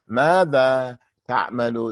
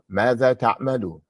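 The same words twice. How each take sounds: First: It is said slowly and stiffly, like reading aloud. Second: It is said smoothly, like a natural spoken question. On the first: The speaker calls it wrong. "That's like a beginning reading voice, like when you read" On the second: The speaker calls it right. "say it like this. ... The same that you say it in English"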